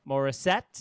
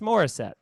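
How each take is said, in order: First: The pitch goes up on the last syllable. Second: The pitch goes down on the last syllable. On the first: The speaker calls it wrong. "You were going up on this set" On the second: The speaker calls it right. "it's a down on the set"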